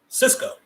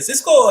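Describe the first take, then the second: First: It is said in his own plain voice. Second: It is said in a put-on Puerto Rican accent.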